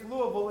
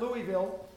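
First: The name is said with the local pronunciation. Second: The name is said with an outsider pronunciation. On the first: This is how people who live there say it. The speaker calls it right. "If you live in the Louisville area, it's Louisville" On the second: This is how people from elsewhere say it. The speaker calls it wrong. "It's not Louisville"

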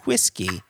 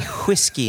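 First: The word starts with a plain w sound. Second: The word starts with a breathy h before w.

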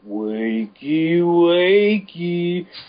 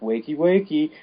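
First: It is said slowed down. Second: It is said at normal speed.

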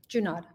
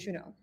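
First: The name has an American English pronunciation. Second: The name has a French pronunciation. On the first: This is how the family says it now. "which one is the Americanized version?" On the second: This is the original form of the name. "many generations ago, it would have been Junod"

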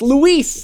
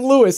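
First: The name is said with a Spanish pronunciation. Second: The name is said with an anglicized pronunciation. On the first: The speaker calls it right. "It's Luis" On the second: The speaker calls it wrong. "his name isn't Luis"

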